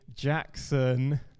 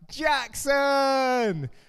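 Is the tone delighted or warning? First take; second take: warning; delighted. First: The name is said low and sternly. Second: The name is called out warmly and excitedly. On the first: The parent is telling the child to stop misbehaving. "we're out in the supermarket, don't want to make a scene" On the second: The parent is happy to see the child. "I've just come down after a long day of work and see Jackson for the first time"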